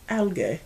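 It is said with a British accent.

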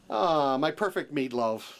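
It is said in a natural, everyday way.

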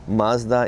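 Mazda is said the American way.

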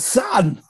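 It is said in a put-on celebrity voice.

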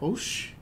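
The word is said in a sad, downcast tone. The speaker is unhappy about something. "Quando você tá triste, você fala"

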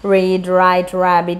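The words are said with a non-Indian r. "This is not something related to Indian English"

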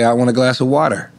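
It is said in a Californian street accent.

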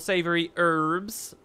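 It is said in an American accent.

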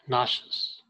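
The word is said with an American pronunciation. "In America, it's pronounced nauseous"

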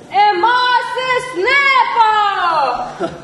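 It is said forcefully, with conviction.

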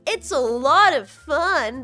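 It is said with thick, heavy sarcasm. The speaker calls it right. "I could have said that way more sarcastically"

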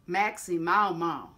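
It is said in a strong Southern accent. "If you want to go way down south, you drop your jaw more"

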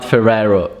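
The name is said with an American English pronunciation. The speaker calls it wrong. "It's not Ferrero"

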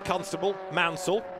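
There is a pause between the two names. Two separate drivers are being named. The speaker calls it right. "Sorry, there was a pause there"

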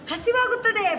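The word is said cheerfully, with a smile. The speaker calls it right. "ಖುಷಿಯಾಗಿ"

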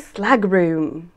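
It is said with a British English accent. "Maybe I can try with a British accent"

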